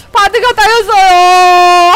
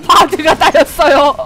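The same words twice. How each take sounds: First: 바드가 따였어요 stretched very slowly and louder, stress on 바드가; mock wail. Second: 바드가 따였어요 said through a laugh, falling. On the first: Streamer hamming up grief for the fallen Bard, slow louder wail. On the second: Real, not acted. Streamer laughing as the ally Bard gets first blood taken, amused. Reacting to her Bard dying.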